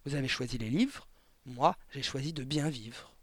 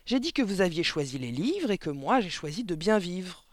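First: Said in the usual way. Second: "J'ai dit que vous aviez choisi les livres" restated higher and louder; "de bien vivre" said higher and louder, as a pointed repeat; emphatic repeat. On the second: A narrator's reading. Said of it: "répéta madame Verdebois".

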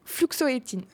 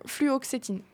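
First: Fluxoétine, with the x before the o; mispronounced. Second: Fluoxétine, careful flu-ox-étine; fluoxétine, each syllable placed carefully; correct pronunciation. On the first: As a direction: stumbles into fluxoétine, x and o swapped. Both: Real, not acted. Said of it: "attention, le mot est très compliqué".

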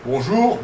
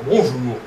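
First: "Bonjour" rising at the end; different intonation. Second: "bonjour" falling at the end; different intonation. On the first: Researcher showing one of two contrasting greetings, "Bonjour" with a rising tune. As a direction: lift the second syllable of "Bonjour". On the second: Researcher showing one of two contrasting greetings, "bonjour" with a falling tune. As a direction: let the second syllable of "bonjour" drop. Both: Shown as a demonstration. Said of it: "Des choses prononcées de façon différente".

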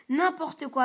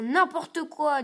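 First: Louder, cheeky dismissal; defiant retort. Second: Drawn out, defiant and slow; slow sulky retort. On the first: Simon snubs his father, loud and cheeky. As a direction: brush off father's plea. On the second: Simon defies his mother, slow and sulky. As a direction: drag it out to annoy mother. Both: A narrator's reading.

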